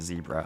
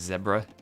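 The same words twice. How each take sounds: First: It is said in the American way. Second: It is said in the British way. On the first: "I don't know if that's an American thing or just like a New Jersey thing" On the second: "people with a U K English background might be more apt to say zebra"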